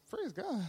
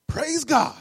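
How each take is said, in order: First: High, soft, rising question; incredulous echo. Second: Loud, high burst of praise; jubilant praise. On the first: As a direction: echo it back in disbelief. Woman echoes pastor in disbelief. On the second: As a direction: exclaim it like a joyful pastor. Pastor's jubilant answer to bad news. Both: Acted.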